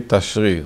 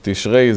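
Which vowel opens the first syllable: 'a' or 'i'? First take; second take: a; i. First: The first syllable has an 'a' vowel. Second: The first syllable has an 'i' vowel. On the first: This is the original traditional name. The speaker calls it right. "the right way to say Tashri, like the Bukharian. This is the real name" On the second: This is a later modern change. The speaker calls it wrong. "Tishrei is a Israeli changing"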